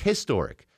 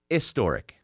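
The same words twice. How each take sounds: First: The word begins with an audible H sound. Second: The word begins without an H sound. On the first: This is the modern American way of saying it. "we started pronouncing the H" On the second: This is the older way of saying it. "The H was silent"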